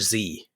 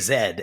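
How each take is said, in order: First: The letter is said the American way. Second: The letter is said the Canadian way. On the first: This is the American way of saying it. "the shocking part was one day out of my mouth, this came out" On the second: This is the Canadian way of saying it. "In Canada, of course, we say Z"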